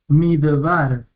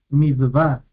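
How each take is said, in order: Both takes have the same delivery.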